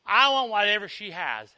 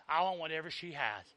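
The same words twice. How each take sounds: First: Said in the usual way. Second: Soft echo. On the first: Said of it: "repeated softly right after". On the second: Shown as a demonstration. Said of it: "echo of the line before".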